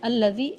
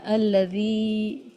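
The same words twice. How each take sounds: First: The vowel after the dh sound is short. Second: The vowel after the dh sound is stretched long. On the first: The speaker calls it wrong. "ऐसे नहीं पढ़ना" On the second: The speaker calls it right. "अल्लज़ी की दाल को हमें थोड़ा ज़्यादा खींचना है"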